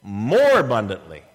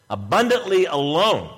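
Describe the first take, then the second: First: "More" lifted in pitch and punched, "abundantly" dropping away; stress on More. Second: Said in the usual way. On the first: Shown as a demonstration. Preacher contrasting it with abundant alone, emphatic stress on "More". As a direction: hit "More" hard, then fall on "abundantly". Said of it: "But he said". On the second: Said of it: "But he said, More abundantly".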